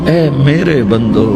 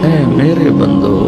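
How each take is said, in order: No difference in how they are said.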